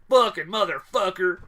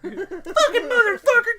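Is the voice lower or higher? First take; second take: lower; higher. First: It is said in a lower voice. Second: It is said in a higher voice.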